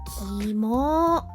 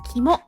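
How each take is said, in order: First: The word ends with a long, stretched vowel. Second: The word ends with a short, clipped vowel. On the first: "stretch the vowels like" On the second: "You can shorten it like"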